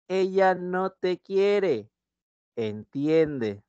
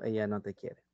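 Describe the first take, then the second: First: "Ella no te quiere" drawn out slowly, stress on "Ella"; slow example read. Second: Low, soft Batman-like telling "Ella no te quiere"; Batman telling Robin. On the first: Shown as a demonstration. Teacher reading the negation example to the class, slow and stressed. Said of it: "Por ejemplo". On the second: Pretend. Batman breaking the news to Robin, low and soft. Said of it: "Y yo te estoy diciendo".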